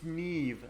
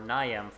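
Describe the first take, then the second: First: The name is said in one syllable, ending in v. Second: The name is said in two syllables, ending in m. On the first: The speaker calls it right. "you idiot, it's Neve" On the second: The speaker calls it wrong. "I've been saying Niam or Niam for my entire life"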